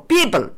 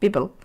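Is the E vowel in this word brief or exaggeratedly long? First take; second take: exaggerated; brief. First: The E vowel is stretched exaggeratedly long. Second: The E vowel is cut short. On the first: "You don't want to just exaggerate and go" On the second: "you're not really holding that E long enough"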